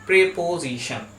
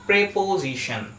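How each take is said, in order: The two takes are said the same way.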